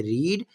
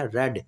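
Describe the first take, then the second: First: ریڈ said as "reed" with a long ee; ریڈ with the long vowel of present tense; ریڈ pronounced reed; present-tense read. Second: ریڈ said as "red" with a short e; ریڈ with the short vowel of the past forms; ریڈ pronounced red; past-tense read. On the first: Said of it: "first form کو پڑھتے ہیں ریڈ". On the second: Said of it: "second اور third کو پڑھتے ہیں ریڈ". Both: Shown as a demonstration.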